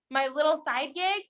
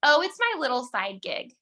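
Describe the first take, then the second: First: "My little side gig" lifted higher with a scornful questioning rise; incredulous mock repeat; mocking echo. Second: Said in the usual way. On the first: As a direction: echo it back in disbelief. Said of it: "That's horrible". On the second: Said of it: "The other thing that we say sometimes".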